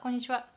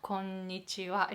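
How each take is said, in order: First: The word is said quickly and casually. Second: The word is said slowly and carefully. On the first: It sounds like real conversation. The speaker calls it right. "It's so fast" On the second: It sounds like textbook speech. The speaker calls it wrong. "It's so slow because it's so textbook"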